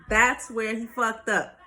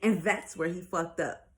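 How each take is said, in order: First: THAT'S hit loud, the whole phrase slowed down; slow down and punch the word THAT'S; emphatic repeat. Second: Said in the usual way. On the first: Real, not acted. Same words repeated for emphasis.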